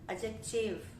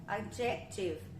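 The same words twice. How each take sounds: First: The stress is shifted following Portuguese habits. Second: The stress is shifted following Portuguese habits.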